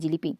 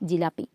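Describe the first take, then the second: First: The middle vowel matches the final vowel. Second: The middle vowel differs from the final vowel. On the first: "জিলিপিটা অনেকটা সহজ হয়ে যাচ্ছে উচ্চারণ করাটা" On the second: "জিলাপি বলতে আমাদের যতটুকু কষ্ট হচ্ছে"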